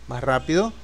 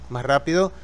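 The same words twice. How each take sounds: The two takes are said the same way.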